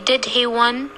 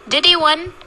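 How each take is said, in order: First: The h in 'he' is pronounced. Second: The h in 'he' is dropped. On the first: The strong form is used. The speaker calls it wrong. "We don't say, did he win?" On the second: The weak form is used. The speaker calls it right. "So we are saying, did he win?"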